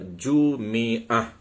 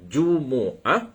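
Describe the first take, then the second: First: An i vowel follows the m. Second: A u vowel follows the m. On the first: "yang ketiga ha, kita boleh baca" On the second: "Pertamanya kita boleh baca dengan Jumu'ah"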